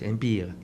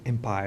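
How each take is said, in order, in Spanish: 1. La palabra se pronuncia como en francés. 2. La palabra se pronuncia como en inglés. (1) "pensando en francés, Empire" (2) "la gente ti- medio tiringona dice Empire"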